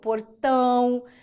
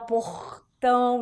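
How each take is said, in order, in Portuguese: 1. O R é um som puxado, não gutural. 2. O R é um som gutural, vindo da garganta. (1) "O paranaense puxa o R" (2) "o carioca já vai fazer um R mais aqui, ó, gutural"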